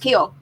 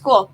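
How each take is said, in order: First: The vowel sounds like the one in 'keel'. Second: The vowel sounds like the one in 'cool'. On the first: This is how the family always said the name. The speaker calls it right. "We said it was Keel. That's how it's always been said" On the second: This is how the announcers say the name. The speaker calls it wrong. "We never say her name was Cool"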